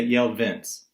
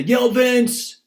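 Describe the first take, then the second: First: Said in the usual way. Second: High, loud shout on both words; wrongly yelled tag; exclaimed yell. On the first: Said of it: "We say". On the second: Shown as a demonstration. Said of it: "we don't say".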